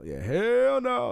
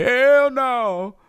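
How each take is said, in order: First: "hell no" stretched slowly, high on "hell"; slow drawn-out "hell no". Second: High, loud "Hell no" call; loud shout. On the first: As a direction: drag out "hell no" slowly, stressing "hell". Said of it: "Like that". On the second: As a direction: belt out "Hell no" like a game show buzzer. Shows how the game call sounds. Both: Shown as a demonstration.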